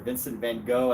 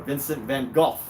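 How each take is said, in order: First: The name is said the American way. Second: The name is said the British way. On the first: "as Americans say it" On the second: "as the British say it"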